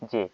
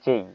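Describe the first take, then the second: First: The letter is said with a pure 'e' vowel. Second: The letter is said with an 'ei' glide. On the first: The speaker calls it wrong. "এটা আমরা আগে বলতাম যে এটা হচ্ছে জে" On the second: The speaker calls it right. "এটা হবে জেই"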